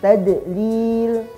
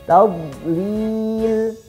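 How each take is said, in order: First: The middle consonant has an echoing bounce. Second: The middle consonant is held without bounce. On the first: The speaker calls it wrong. "huruf bod dipantulkan membacanya saat sukun" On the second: The speaker calls it right. "yang tepat adalah tidak dipantulkan"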